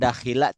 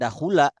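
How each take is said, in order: First: The second vowel is i. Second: The second vowel is u. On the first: "tidak akan dakhila" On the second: "tidak akan dahula"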